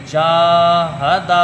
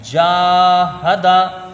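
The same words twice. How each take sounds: First: जाहदा with जा and दा both held long; first and last vowels drawn out. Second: जाहदा with जा held long and हदा quick; first vowel drawn out. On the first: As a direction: chant जाहदा, stretching जा and दा. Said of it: "इसमें जीम भी खींचेगा, दाल भी खींचेगा". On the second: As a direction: chant जाहदा, stretching जा. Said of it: "जीम को खींच के पढ़ा जाएगा". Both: Shown as a demonstration.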